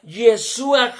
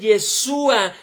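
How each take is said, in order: First: The first vowel sounds like 'e'. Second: The same.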